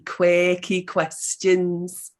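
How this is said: It is said in a Liverpool accent.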